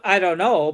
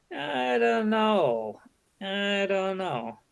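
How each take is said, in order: First: Said in the usual way. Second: Slow, soft, higher "I don't know", drawn out; slow hesitant "I don't know". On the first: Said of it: "and not". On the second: Shown as a demonstration. Teacher showing the polite way, slow and soft. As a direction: trail off reluctantly. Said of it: "and not ... but".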